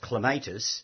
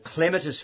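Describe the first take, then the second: First: The middle vowel is a long stressed A. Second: The middle vowel is short and unstressed. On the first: The speaker calls it wrong. "There's an A, long A" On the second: The speaker calls it right. "Clematis flows"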